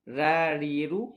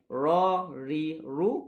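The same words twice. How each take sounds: First: The r sounds are light and thin. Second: The r sounds are heavy and thick. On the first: The speaker calls it wrong. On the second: The speaker calls it right. "barulah betul"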